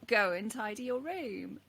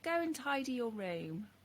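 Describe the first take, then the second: First: It is said slightly louder. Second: It is said at normal volume.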